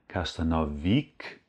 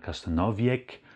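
First: The word ends in a plain -ik sound. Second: The word ends in an -iek sound. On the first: "es ist kein Kasztanowik" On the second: "oder Kasztanowiek"

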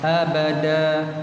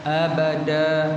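Both takes have the same delivery.

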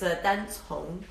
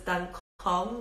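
First: The second word begins with an S-like sound. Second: The second word begins with a K sound. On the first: The speaker calls it right. "the C pronounces it S" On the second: The speaker calls it wrong. "with the C as a K"

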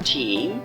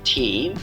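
Both takes have the same delivery.

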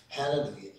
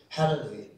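The two takes are said the same way.

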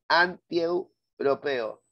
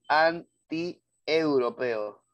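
First: The three vowels are glided together in one syllable. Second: The vowels are split with a break after 'anti'. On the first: The speaker calls it right. "ahí hay triptongo" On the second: The speaker calls it wrong. "es inaudito que alguien diga"

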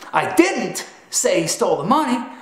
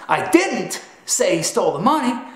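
First: The stress falls on the word 'didn't'. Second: The stress falls on the word 'didn't'.

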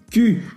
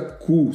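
First: The word is pronounced like Portuguese 'que'. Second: The word is pronounced like Portuguese 'cu'. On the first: The speaker calls it right. "se pronuncia... Que" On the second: The speaker calls it wrong. "E não se pronuncia cu"

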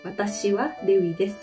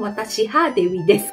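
First: The particle after watashi is said as wa. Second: The particle after watashi is said as ha. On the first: The speaker calls it right. "Jadi di sini bacanya wa" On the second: The speaker calls it wrong. "bukan watashi ha Dewi desu"

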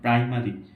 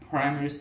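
First: The p has no puff of air. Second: The p has a strong puff of air. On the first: The speaker calls it wrong. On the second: The speaker calls it right.

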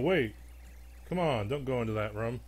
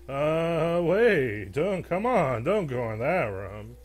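First: It is said in his normal voice. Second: It is said in a put-on mummy voice.

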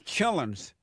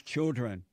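First: The d-r sound is dropped, ending in -lens. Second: The d-r sound is kept, ending in -dren.

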